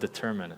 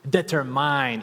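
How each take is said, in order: First: The word is pronounced in the standard way. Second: The word is pronounced in a foreign-accented way. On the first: The speaker calls it right. "instead of determine" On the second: The speaker calls it wrong. "I would say determine"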